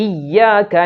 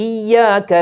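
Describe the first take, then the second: No difference in how they are said.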